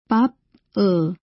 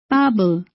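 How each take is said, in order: First: The final b is kept apart from the next syllable. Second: The final b starts the next syllable. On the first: The speaker calls it wrong. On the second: The speaker calls it right. "O. In this case, the final consonant B is realized as the initial consonant of the second syllable"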